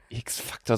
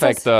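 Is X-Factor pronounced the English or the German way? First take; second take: German; English. First: It is pronounced with German sounds. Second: It is pronounced with English sounds. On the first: The speaker calls it wrong. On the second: The speaker calls it right.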